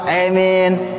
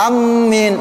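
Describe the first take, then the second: First: The vowel is tilted toward an e sound. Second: The m sound is doubled and held. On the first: "yang ketiga pakai imalah" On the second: "yang keempat, amin pakai tasdid"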